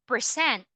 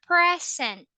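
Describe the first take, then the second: First: It is said the way of the verb. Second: It is said the way of the noun. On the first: It means to perform or show. "it will be a verb already" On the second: It means a gift. "you are referring to the noun, which is a gift"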